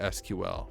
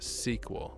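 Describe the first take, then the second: First: It is spelled out letter by letter. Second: It is said as one word, sequel. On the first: This is the later, shortened name. "it was shortened to" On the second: This is the original, longer name. "it was initially called sequel"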